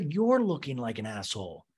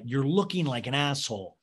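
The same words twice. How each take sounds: First: "you're" punched as the contrast; stress on YOU'RE. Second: Said in the usual way. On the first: Real, not acted. Host turns the insult back on Leva, stressing "you're". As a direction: lean hard on "you're", then fall away.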